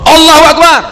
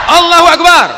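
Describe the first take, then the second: Both takes have the same delivery.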